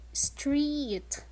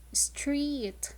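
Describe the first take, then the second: First: \"street\" spoken clearly with a long E; modelled word street. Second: \"Street\" repeated softly for the class; softer repeated model word. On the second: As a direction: echo \"Street\" quietly with the long E. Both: Shown as a demonstration. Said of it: "the word street has the long E sound".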